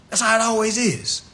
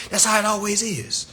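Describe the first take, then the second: No difference in how they are said.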